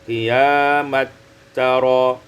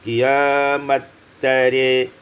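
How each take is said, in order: First: The final vowel is a plain open 'a' sound. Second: The final vowel is tilted toward an 'e' sound. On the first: "dengan fathah" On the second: "imalatu ra dengan imalah ra"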